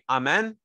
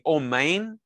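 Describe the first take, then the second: First: It is said with a Sephardic pronunciation. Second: It is said with an Ashkenazi pronunciation.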